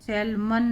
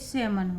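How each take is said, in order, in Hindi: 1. इस शब्द में साफ़ L ध्वनि बोली जाती है। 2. इस शब्द में कोई L ध्वनि नहीं बोली जाती। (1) "सैल्मन नहीं पढ़ेंगे" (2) "ये सेमन होगा"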